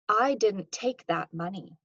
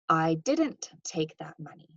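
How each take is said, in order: First: The stress falls on the word "take". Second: The stress falls on the word "didn't". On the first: The speaker did not take it but knows something. "This implies that I didn't take it, but I know something" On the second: The speaker firmly denies taking the money. "Note that there's kind of some denial here"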